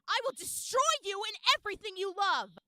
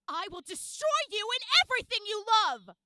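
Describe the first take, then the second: First: The word everything is said plainly, without punch. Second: The word everything is hit hard with force.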